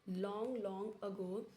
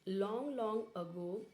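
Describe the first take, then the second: The two takes are said the same way.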